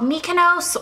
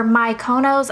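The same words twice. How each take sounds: First: Mykonos as MEE-kuh-nohss; "Mykonos" starting like "me"; first pronunciation. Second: Mykonos as my-KOH-nohss; "Mykonos" starting like "my"; alternative pronunciation. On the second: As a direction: say "Mykonos" with MY, then stressed KOH. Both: Shown as a demonstration. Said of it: "I actually don't know how to pronounce it".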